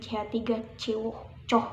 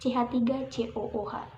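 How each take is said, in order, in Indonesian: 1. Huruf terakhir digabung jadi satu suku kata. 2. Setiap huruf dibaca terpisah. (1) "kalau dalam bahasa Indonesia mungkin bacanya C H tiga C O coh gitu" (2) "kalau dalam kimia itu semua huruf harus dibaca"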